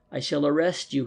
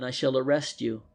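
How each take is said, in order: First: Firm, set repetition; a touch of resolve; mildly determined. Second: Said in the usual way. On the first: A narrator's reading. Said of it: "he went on determinedly". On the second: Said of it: "If you go out with this man".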